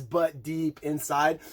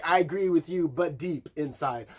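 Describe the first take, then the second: First: Slow sung lyric. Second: Gently sung line; sung lyric, fading. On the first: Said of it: "she says". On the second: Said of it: "But it's like". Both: Retold or imitated.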